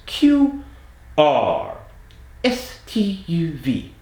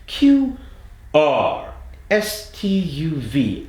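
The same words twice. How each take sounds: First: High British "Q", American "R", straight back to British "S T U V"; no sliding. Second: Slow slide from Australian "S" into British "T U V"; sliding forward. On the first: Accent coach shows the correct drill, no sliding. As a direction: switch cleanly: "Q" forward, "R" back, "S T U V" forward. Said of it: "without sliding". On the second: Accent coach shows the common mistake, sliding forward. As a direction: say "S T U V" creeping gradually forward out of Australian. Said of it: "the T U V started sliding forward". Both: Shown as a demonstration.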